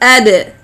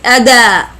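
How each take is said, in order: First: The d bounces with no full vowel after. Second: The d is followed by an a vowel. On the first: The speaker calls it right. "It is ad, ad, like this" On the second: The speaker calls it wrong. "not as fatha, like ada"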